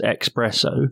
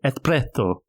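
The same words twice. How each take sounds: First: The word is said without any 'th' sounds. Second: The word is said with added 'th' sounds. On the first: This is the common mispronunciation. "some people mispronounce it as espresso" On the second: It is meant to sound more continental. "he overdoes it and puts some puts some ths in there"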